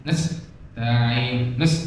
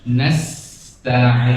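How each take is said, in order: First: "Nasta'in" with the s squeezed short, softer; choked sin, wrong. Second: "Nasta'in" with the s let flow, slightly long; flowing long sin. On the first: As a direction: cut the s of "Nas" off without any flow. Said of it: "Tidak boleh dimampatkan". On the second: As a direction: draw out the hiss of the s in "Nasta'in". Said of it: "sinnya juga mengalir agak panjang". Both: Shown as a demonstration.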